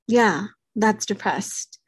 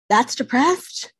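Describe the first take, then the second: First: "Yeah, that's depressed." said slowly, falling to a settled close; answering the doubters with flat certainty, falling on "depressed"; firm confirmation. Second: "That's depressed?" asked slowly, rising on "depressed"; doubting what people told her, rising on "depressed"; incredulous question. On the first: Speaker answers her own doubters, slow and falling on "depressed". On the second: Speaker mimics people who doubt she was depressed, rising on "depressed". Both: Shown as a demonstration.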